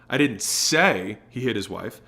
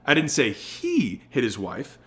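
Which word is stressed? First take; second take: say; he. First: The word "say" is stressed. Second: The word "he" is stressed.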